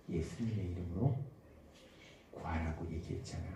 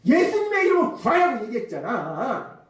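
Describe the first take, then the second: First: Very soft, low and hushed; small, still voice. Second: Mock loud scolding, pitched high. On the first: Acted. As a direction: murmur it low, like the Holy Spirit's gentle prompting. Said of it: "아주 작은 세미한 음성으로". (아주 작고 세미한 음성으로) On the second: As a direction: raise the pitch as if telling someone off. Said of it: "막 큰 소리로". (큰 소리로 다그치는 흉내)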